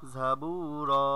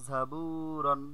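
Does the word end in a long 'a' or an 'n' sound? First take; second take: long a; n sound. First: The word ends with a long a vowel. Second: The word ends with an n sound. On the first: "দুই জবরে থামিলে একালিফ টানিয়া পড়িতে হয়" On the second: "র দুই জবর রন"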